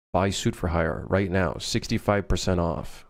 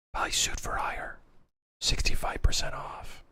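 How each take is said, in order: First: Said in the usual way. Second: Creepy whisper. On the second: Pretend. Inner voice urging players to buy his game, whispering. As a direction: whisper it like a voice in your head.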